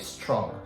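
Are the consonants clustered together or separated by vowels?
clustered. The consonants run together without extra vowels. The speaker calls it right. "So this is connected speech"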